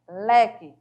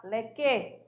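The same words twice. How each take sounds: First: "leque" as LE-que, ending light; correct first-syllable stress. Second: "leque" stressed on the end as le-QUÊ; misplaced final stress. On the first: Teacher correcting the impossible pronunciation, first-syllable stress. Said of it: "tem que ser pronunciada forte". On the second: Teacher showing what you can't say, misplaced final stress. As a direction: wrongly push the final que of "leque". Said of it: "Não dá pra você falar". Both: Shown as a demonstration.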